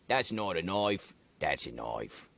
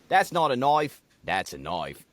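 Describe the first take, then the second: First: It is said in a deeper New Zealand accent. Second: It is said in an Australian accent.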